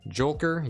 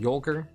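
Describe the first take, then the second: First: The word begins with a J sound. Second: The word begins with a Y sound. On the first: "I'll try to remember and say Jolker then" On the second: "I've always said Yolker"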